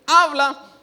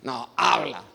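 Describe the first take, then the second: First: Loud, high, falling "Habla"; conditional willingness. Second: Low, submissive "habla"; total obedience. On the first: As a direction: say "Habla" loudly, as an over-eager offer. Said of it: "No decir". («Habla» fuerte, de obediencia condicionada) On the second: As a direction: say "habla" low, as full surrender. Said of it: "Obediencia total". («habla» grave, de obediencia total) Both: Shown as a demonstration.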